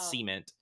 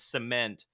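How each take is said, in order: First: It is said so it sounds like seaman. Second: It is said as standard cement. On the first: The speaker calls it wrong. "not cement" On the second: The speaker calls it right. "I have to say it's cement"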